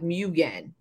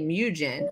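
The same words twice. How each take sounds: First: The g is hard, as in again. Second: The g is soft, like a j sound. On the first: "And now you're saying like again. Like Mugen" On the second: "You said J-E-N like Jen. So I say Mugen"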